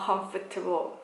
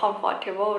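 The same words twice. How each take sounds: First: The middle syllable is reduced and said quickly. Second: The middle syllable is said fully, like 'fort'. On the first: The speaker calls it right. "เขาออกเสียงว่า" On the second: The speaker calls it wrong. "มันไม่ได้ออกเสียงว่า"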